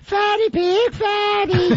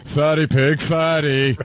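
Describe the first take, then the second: First: It is said in a childish, taunting voice. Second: It is said in a serious, grown-up voice. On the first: The speaker calls it right. "It it can only really be done in a voice that's like" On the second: The speaker calls it wrong. "I'm mature"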